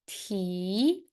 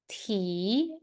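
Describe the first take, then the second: First: The pitch rises from middle to high. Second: The same.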